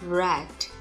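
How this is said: The pitch falls on the word. The speaker calls it right. "mà là red. Đi xuống nhé"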